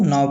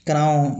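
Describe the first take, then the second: First: "नाव" starting straight on N, no K; silent K. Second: "कनाव" said as ka-now, K sounded; K pronounced. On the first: Teacher giving the accepted reading, "नाव" with K silent. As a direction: drop the K, say "नाव" as now. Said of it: "इसलिए इसको नाव पढ़ते हैं". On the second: Teacher showing why it sounds odd, "कनाव" with K sounded. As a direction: add a "ka" before the N in "कनाव". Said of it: "कनाव अजीब लग रहा है". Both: Shown as a demonstration.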